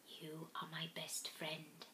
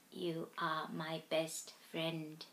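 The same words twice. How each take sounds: First: Breathy whispered reply; whispering. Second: Soft and slow. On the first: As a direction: whisper it back tenderly. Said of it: "I whispered back". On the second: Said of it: "he mouthed". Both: A narrator's reading.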